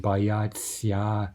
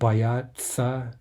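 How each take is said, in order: First: The ending is pronounced with a soft 'tsya'. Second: The ending is pronounced as a plain 'tsa'. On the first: The speaker calls it wrong. "we don't say what we're actually writing on the page" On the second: The speaker calls it right. "a simplified form with tsa"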